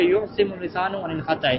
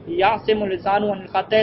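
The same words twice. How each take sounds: First: یعصم opening on a "yu" sound; alternative verb reading. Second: یعصم opening on a "ya" sound; first verb reading. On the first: Teacher offering students another reading, یعصم begun with "yu". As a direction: say یعصم with a rounded "u" or "o" after the y. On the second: Teacher reading the Arabic rule to students, یعصم begun with "ya". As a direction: say یعصم with an "a" vowel after the y. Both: Shown as a demonstration. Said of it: "یا آپ یوں کہہ دیں".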